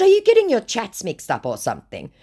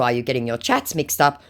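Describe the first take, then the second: First: High-pitched acted questioning; mock suspicious. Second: Said in the usual way. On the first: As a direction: challenge them in a raised, louder voice. Acted question, later read back plain.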